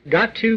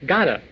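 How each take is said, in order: First: Each word is said fully and separately. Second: The words blend into one short reduced form.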